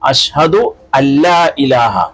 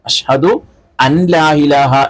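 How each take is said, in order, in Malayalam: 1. n, l-മായി ലയിച്ച് ഇരട്ട ll ആകുന്നു. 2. 'la'ക്ക് മുമ്പ് n പ്രത്യേകമായി ഉച്ചരിക്കുന്നു. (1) "ആ നൂനിന്റെ വെളിവാകല് അവിടെ ഉണ്ടാവാൻ പാടില്ല" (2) "എന്നല്ല"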